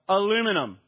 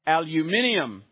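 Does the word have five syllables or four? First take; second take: four; five. First: The word is said with four syllables. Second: The word is said with five syllables. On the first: "it's like we say the word in America" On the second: "how do they say it in the UK? ... you hear the extra syllable added there"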